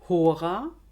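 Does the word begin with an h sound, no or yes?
yes. The word begins with an h sound.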